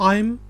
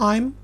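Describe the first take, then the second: No difference in how they are said.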